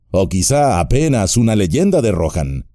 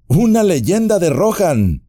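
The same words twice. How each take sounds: First: Said in the usual way. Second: Much higher, offended disbelief; indignant exclamation. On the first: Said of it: "son ciertas las viejas leyendas". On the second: A narrator's reading. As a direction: throw the words back in surprise. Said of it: "exclamó Legolas".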